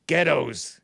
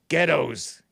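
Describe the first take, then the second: First: The word is said in a Scottish accent. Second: The word is said in a Scottish accent.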